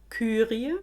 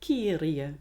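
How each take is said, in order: First: The first vowel is a rounded ü sound. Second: The first vowel is a plain i sound.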